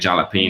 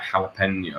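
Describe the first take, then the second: First: The word is said with anglicized pronunciation. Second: The word is said with Spanish pronunciation. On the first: The speaker calls it wrong. "But I'm I'm saying jalapeno" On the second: The speaker calls it right. "The proper Spanish word is like jalapeno"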